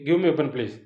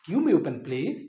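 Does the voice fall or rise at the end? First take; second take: fall; rise. First: The voice falls at the end. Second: The voice rises at the end. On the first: It sounds like a demand, so the listener refuses. The speaker calls it wrong. "నేమో బో" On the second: It sounds like a polite request, so the listener agrees. The speaker calls it right. "Okay take this"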